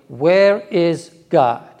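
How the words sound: It is asked in a stern voice.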